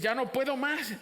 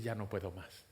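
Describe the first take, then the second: First: High-pitched cry of giving up, acted; raised, exasperated outburst in prayer; desperate surrender. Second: Low, soft, resigned admission; hushed giving up, much softer and lower; quiet surrender. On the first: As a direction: cry it out at the end of your strength. Voices a believer giving up. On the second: Acted. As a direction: let it sink down, spent. Same words said low, resigned.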